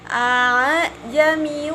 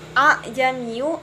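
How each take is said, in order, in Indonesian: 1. Hamzah kedua disamarkan, antara hamzah dan alif. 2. Hamzah kedua dibaca penuh dan jelas. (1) "tetapi a'jamiyu wa 'arabbi" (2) "Dibacanya bukan a'jamiyu"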